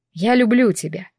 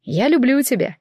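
First: Gentle, tender repeat of the words; softly. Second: Said in the usual way. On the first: A narrator's reading. Man repeats his love to the tearful heroine, softly. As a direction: say it softly, calming her. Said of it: "повторил он мягко".

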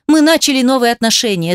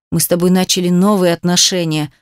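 First: Mocking echo. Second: Slightly lowered, heavy drone; understated low rumble of reproach; droning. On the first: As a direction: throw the words back at him. She throws his words back. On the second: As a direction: drone it out accusingly. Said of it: "прогудел он". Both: A narrator's reading.

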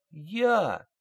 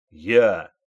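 First: High, timid little squeak; a frightened private's tiny squeak. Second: Loud, sharp barked answer; barked reply. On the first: Private answers his sergeant with a timid squeak. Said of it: "пискнул Кузнецов". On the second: Private barks his answer at the sergeant's order. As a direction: snap it out like on parade. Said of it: "рявкнул Кузнецов". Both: A narrator's reading.

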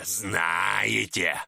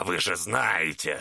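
First: Знаете roared out in a growling shout; growled shout. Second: Знаете drawn out low and slow in a growl. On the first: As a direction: bellow знаете at them. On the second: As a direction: lean in slowly, low and menacing on знаете. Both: Acted. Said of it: "прорычал Чернолицый".

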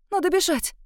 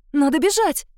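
First: High frantic urging; first cry, pitched high; panicked. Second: Louder, stressing бежать; louder panic. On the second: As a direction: push бежать out harder. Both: A narrator's reading. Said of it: "Запаниковала я".

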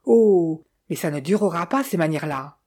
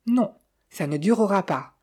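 First: Understated shrill cry, loud opening Oh. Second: Decided little murmur. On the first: Widow shouting in the corridor after slamming out, mildly shrill cry. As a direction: burst out on the Oh, then ease off. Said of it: "crier dans le corridor d'une voix suraiguë". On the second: Sophie answering the departed widow, small decided tone. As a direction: say it with mild firmness. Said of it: "murmura Sophie d'un petit ton décidé". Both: A narrator's reading.

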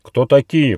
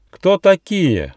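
First: Louder stern echo of the question; stern repeat. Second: High, slow, menacing fairy; slow threatening question from the fairy queen; stern demand. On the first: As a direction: bark it like a royal guard. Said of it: "повторил вопрос королевский альбатрос". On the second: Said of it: "грозно спросила фея Монтре". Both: A narrator's reading.

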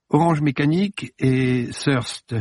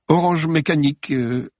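First: Said in the usual way. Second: Higher, halting "Orange Mécanique"; stammering. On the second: Acted. Judith answering nervously, mildly flustered. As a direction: blurt it out, flustered. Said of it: "bredouilla-t-elle".

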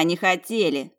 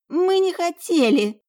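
First: Unrepentant. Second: High, slow cry of denial; pleading protest. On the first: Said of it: "В голосе Йолы не было раскаяния". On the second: Younger twin protesting to her sister, pleading. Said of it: "Сафира покосилась на сестру". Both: A narrator's reading.

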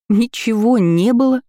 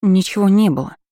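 First: Higher and louder, echoing it in disbelief; stunned repeat. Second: Said in the usual way. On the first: A narrator's reading. Lira echoing Florence's denial, stunned disbelief. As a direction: repeat it back, thrown by the answer. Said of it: "ошарашенно повторила Лира". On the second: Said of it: "с трудом выговорила я".

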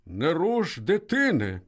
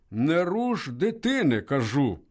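First: Slow, firm order; commanding. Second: Slow, firm repeated order; commanding. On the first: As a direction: lay down the law calmly. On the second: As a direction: insist without raising the voice. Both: A narrator's reading. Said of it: "владно сказав Швець".

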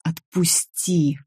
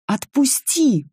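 First: Slow, shaking plea, a touch of fear; trembling plea. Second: Scream. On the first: Nika pinned by Richard: slow frightened plea. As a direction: beg him to let go, barely holding on. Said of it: "меня уже трясло". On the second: Nika breaking from Richard's grip: desperate scream. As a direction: tear free with a desperate cry. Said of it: "закричала я и рванулась". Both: A narrator's reading.

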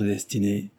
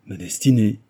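First: Said in the usual way. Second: Destinée thrown out louder, falling hard; a mild cry on Ma destinée; cried out. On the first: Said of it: "prononça-t-il". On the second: A narrator's reading. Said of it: "cria Jean".

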